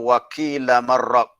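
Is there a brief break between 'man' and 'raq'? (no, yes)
no. The n merges into r with no break.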